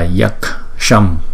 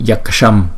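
First: The word is said slowly with each part clear. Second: The word is said quickly and run together. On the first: The speaker calls it right. "nhưng mà là" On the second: The speaker calls it wrong. "Chúng ta đọc nhanh thành là"

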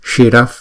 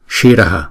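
First: The word ends without any added echo vowel. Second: The final h is followed by an echo vowel. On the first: The word is read inside the verse. "đứng trong bài kệ này thì chúng ta sẽ đọc là shiraf" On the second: The word stands on its own. "đứng một mình chúng ta đọc là shiraha"

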